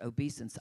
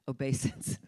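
First: The word sounds much like 'obese'. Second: The word does not sound like 'obese'. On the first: This is how some other people say it. "Some people pronounce it obeisance" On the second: This is the speaker's own preferred way. "because it sounds so much like obese, so I pronounce it obeisance"

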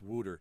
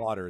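First: It is said in a local Pennsylvania accent. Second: It is said in a standard accent.

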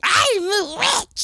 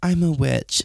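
First: It is said dramatically, over the top. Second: It is said plainly, without flair.

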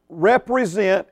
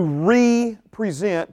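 First: The word is said in its ordinary pronunciation. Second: The prefix is set apart, as re-present. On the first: It means to stand for someone. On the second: It means to present again.

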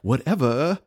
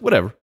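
First: It is drawn out in an exaggerated, dismissive way. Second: It is said plainly and casually. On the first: It imitates a famous teen movie character. "I don't say like" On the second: It is the everyday way of saying it. "I just like"

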